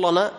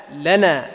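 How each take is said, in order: First: "لنا" with a thickened, dark l; wrong heavy lam. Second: "لنا" with a light, thin l, louder; thin lowered lam. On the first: Teacher shows students the mistake, "لنا" with heavy dark lam. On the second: Teacher corrects students, "لنا" with thin light lam. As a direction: say "لنا" firmly with a flattened-tongue light lam. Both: Shown as a demonstration. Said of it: "تجعل اللام مستفلة".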